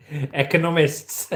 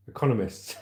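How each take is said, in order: First: "Economists." said slowly, syllable by syllable, ec-o-NOM-ists; careful pronunciation. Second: Laughing stumble. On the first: Shown as a demonstration. Streamer practising a new word for viewers, slow and careful. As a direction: sound out "Economists." slowly and deliberately, getting the word right. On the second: Real, not acted. Streamer laughing at a hard word in the article. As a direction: say "Economists." through a laugh, tripping on it. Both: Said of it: "Oh, I'm learning new words".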